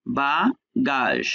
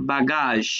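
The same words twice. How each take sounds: First: বাগাস very slowly, rising ba, pause, falling gaazh; final letter silent in a slow বাগাস; syllable-by-syllable demonstration. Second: Said in the usual way. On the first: Shown as a demonstration. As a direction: split বাগাস into two drawn-out syllables. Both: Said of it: "শেষে ও letter silent".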